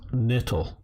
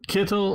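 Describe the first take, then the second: First: The word begins with an N sound. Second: The word begins with a hard K sound. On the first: "or the soft K?" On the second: "With the hard K"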